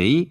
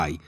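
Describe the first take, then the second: First: I read as a Greek iota, "ee"; "I" as one unglided ee sound; spelt-letter sound. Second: I said as the English diphthong "ai"; "I" gliding from ah to ee; English pronunciation. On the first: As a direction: say I as a pure "ee" vowel. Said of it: "γράφεται με I". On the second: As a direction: say I like English "eye". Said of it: "και προφέρεται I". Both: Shown as a demonstration.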